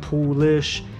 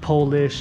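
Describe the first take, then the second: First: The first vowel sounds like 'oo'. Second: The first vowel sounds like 'oh'. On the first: The speaker calls it right. "it's Polish, P O O L I S H" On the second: The speaker calls it wrong. "it's not Polish"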